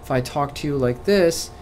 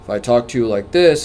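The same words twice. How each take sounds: First: The voice is light, soft and gentle. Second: The voice is lower, firm and authoritative. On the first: The program will be easygoing and kind. "you may feel like, oh, my program is very, you know, nice and we're going to be very gentle" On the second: The speaker knows what they are talking about. "it means I have authority and I know what I'm talking about"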